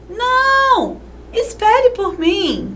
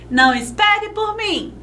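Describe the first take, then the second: First: There is a short pause after não. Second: It is said without a pause after não.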